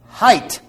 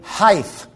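First: The word ends with a t sound. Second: The word ends with a th sound. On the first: The speaker calls it right. "there is an HT" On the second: The speaker calls it wrong. "There is no such word. There's not a TH on the end of that word"

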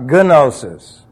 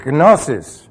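First: The initial G is clearly pronounced. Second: The initial G is almost silent. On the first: The speaker calls it wrong. "Not gnosis" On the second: The speaker calls it right. "you did put a G sound in there. Yeah, but it's almost silent"

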